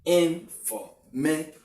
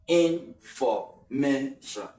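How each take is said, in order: First: "Information" slowed, with "ma" lifted higher and a rising end; teacher showing the stressed syllable "ma". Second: "information" said very slowly with a falling end; teacher demonstrating stress on "information"; stress demo. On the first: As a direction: lift "ma" in "Information" above the rest, end rising. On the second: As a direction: stretch "information" and let it fall on the stressed syllable. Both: Shown as a demonstration. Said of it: "the word me has a higher degree of pronunciation".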